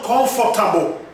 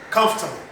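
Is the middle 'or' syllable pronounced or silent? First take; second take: pronounced; silent. First: The middle 'or' syllable is fully pronounced. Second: The middle 'or' syllable is left silent. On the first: The speaker calls it wrong. "Not comfortable" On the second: The speaker calls it right. "I want you to listen carefully"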